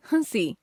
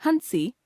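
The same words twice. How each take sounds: First: Said in the usual way. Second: हंसी with full n, "han-si", pitched high; wrong pronunciation. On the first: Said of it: "शुद्ध". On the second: Shown as a demonstration. Teacher showing a common error, हंसी with full n. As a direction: sound a hard n in हंसी. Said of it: "अशुद्ध".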